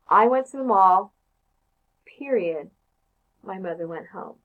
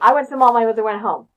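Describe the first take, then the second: First: It stops between the two clauses. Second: It runs straight through without stopping.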